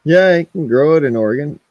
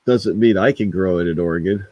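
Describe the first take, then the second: First: High mocking yeah; sarcastic. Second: Said in the usual way. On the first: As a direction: scoff it out sarcastically. Sarcastic high quote vs flat retort.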